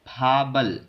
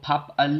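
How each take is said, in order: First: A b sound starts the second syllable, linked. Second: A p sound ends the first syllable, separately. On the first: The speaker calls it right. "बीएफ दूसरी आवाज ब की निकालेगा" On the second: The speaker calls it wrong. "इसको फप अल नहीं पढ़ना"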